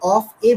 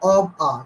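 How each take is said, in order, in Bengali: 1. শব্দ দুটো আলাদা করে বলা হয়, স্পষ্ট f সহ। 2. শব্দ দুটো একসাথে জুড়ে বলা হয়, নরম v সহ। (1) "এই যে অফ এ বলে ফেলছেন" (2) "এটাকে একসাথে কানেক্ট করে বলুন অব আ"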